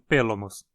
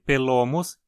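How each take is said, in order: First: The stress is on the first syllable. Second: The stress is on the second syllable. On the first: The speaker calls it wrong. "e não" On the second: The speaker calls it right. "Como o primeiro O aí é longo, a pronúncia precisa ser"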